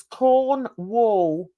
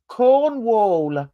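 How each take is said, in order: First: "Cornwall" said slowly as Corn, then wall; slow, separated syllables. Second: Said in the usual way. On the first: Shown as a demonstration. Correcting a listener on the name, "Cornwall" slow and split. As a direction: stretch "Cornwall" into two clear halves. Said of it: "Corn and then W A L L". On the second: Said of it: "No, it's Cornwall".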